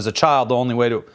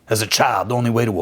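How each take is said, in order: First: It is read in the speaker's ordinary voice. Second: It is read in a put-on character voice.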